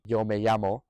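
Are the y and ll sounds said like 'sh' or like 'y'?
y. The y and ll sound like English y. "a normal y sound"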